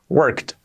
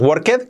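First: The word ends in a T sound. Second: The word does not end in a T sound. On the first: The speaker calls it right. "con un sonido T al final" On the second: The speaker calls it wrong. "la pronunciación no es worked, como yo decía"

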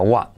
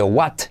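First: The final T is barely touched, almost silent. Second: The final T is fully released. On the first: The speaker calls it right. "sino what. Solo toca la punta" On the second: The speaker calls it wrong. "casi no se dice what"

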